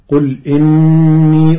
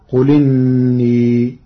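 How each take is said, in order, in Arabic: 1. همزة القطع تفصل بين الكلمتين. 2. الكلمتان متصلتان بلا همزة قطع.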